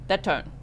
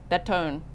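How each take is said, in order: Both takes have the same delivery.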